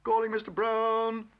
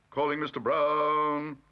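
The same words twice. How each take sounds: First: Calling out. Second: Calling out again. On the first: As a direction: call the name down a corridor. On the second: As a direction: repeat the summons, slower. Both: A narrator's reading. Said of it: "heard his name being called".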